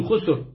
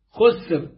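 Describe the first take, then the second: First: خسر as "khusur"; damma on both letters. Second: خسر as "khusr", vowelless س; damma then sukun. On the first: Reciter repeating the variant reading, خسر with two dammas. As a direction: give خسر a short u after خ and after س. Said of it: "بضم الخاء والسين". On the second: Reciter showing the majority reading, خسر with sukun on س. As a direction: say خسر with u after خ, none after س. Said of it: "بضم الخاء وسكون السين". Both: Shown as a demonstration.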